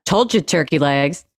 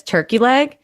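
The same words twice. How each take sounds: First: "Told you turkey legs" as one unbroken phrase, no question; run-together misreading. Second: "Turkey leg" as an offer, pitched up and rising at the end; separate question. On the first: Retold or imitated. Imitating a misreading to Ivanka, "turkey legs" said as her name. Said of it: "like he was calling her turkey legs". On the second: Shown as a demonstration. Showing how one would read it, "Turkey leg" as a rising question. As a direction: ask "Turkey leg" as its own inviting question. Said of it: "that's how one would read that sentence".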